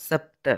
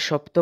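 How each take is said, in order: First: সপ্ত opened with a dental s, not sh; Sanskrit pronunciation. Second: Said in the usual way. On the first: Shown as a demonstration. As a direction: say সপ্ত as sapta. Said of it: "সংস্কৃত উচ্চারণ হলো সপ্ত". (সপ্ত, শুরুতে দন্ত্য স-ধ্বনি) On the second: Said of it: "ফলে সপ্ত বানানের".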